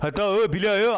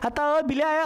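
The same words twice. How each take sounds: First: It is said in a deep, heavy voice. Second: It is said in a thin, high voice. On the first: This is how a grown boy sounds. "लड़कों में मोटी आवाज बनना शुरू होती है" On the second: This is how a girl sounds. "लड़कियों में पतली आवाज बन जाती है"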